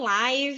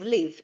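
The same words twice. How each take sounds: First: The vowel is long, like 'eye'. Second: The vowel is short, like 'ih'. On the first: It means a real-time broadcast. The speaker calls it wrong. "e não live igual no Instagram a gente faz" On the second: It means to reside or be alive. The speaker calls it right. "esse live é pronunciado assim mesmo"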